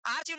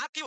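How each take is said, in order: First: आर्चीव said with a "ch" sound; mispronounced with "ch". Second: आर्चीव said "ar-keev", with a k; hard k in place of ch in आर्चीव; corrected "k" sound. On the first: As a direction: say "ar-cheev" for आर्चीव. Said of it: "आर्चीव नहीं होता". (आर्चीव में "च" की आवाज़) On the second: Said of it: "उसको आर्चीव होता है ना". (आर्चीव में "च" की जगह "क") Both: Shown as a demonstration.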